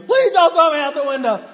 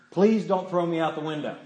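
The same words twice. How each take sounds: First: High, loud mock scream of terror. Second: Said in the usual way. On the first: Uncle faking being thrown out the window, hammed-up scream. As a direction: scream bloody murder as a pretend victim. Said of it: "So he's screaming". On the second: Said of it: "Now you start screaming bloody murder".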